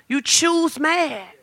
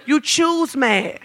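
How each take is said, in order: First: You choose mad, slow and much softer; quiet repeat. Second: You choose mad slow and soft; stress on choose. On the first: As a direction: drop almost to a murmur. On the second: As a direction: say it slowly, pressing choose. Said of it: "No, he don't". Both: Shown as a demonstration.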